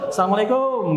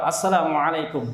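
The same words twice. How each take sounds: First: High, run-together Indonesian "salamlekom"; jokey local Indonesian greeting with long final vowel; Nusantara-style greeting. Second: Arabic pronunciation, full vowels and throaty ain. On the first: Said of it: "Kalau salam Nusantara gimana?". (salam logat Nusantara, tinggi dan memanjang) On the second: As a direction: greet in a careful Arabic accent. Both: Shown as a demonstration.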